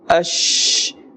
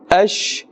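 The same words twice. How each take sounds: First: The final sh sound is stretched out long. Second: The final sh sound is kept short. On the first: The speaker calls it wrong. "they stretch the sound of this letter sheen" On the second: The speaker calls it right. "In the normal manner"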